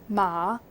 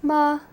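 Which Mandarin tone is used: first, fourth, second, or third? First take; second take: second; first. First: It is said with the second tone. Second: It is said with the level first tone. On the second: "the first tone, which is more like a straight"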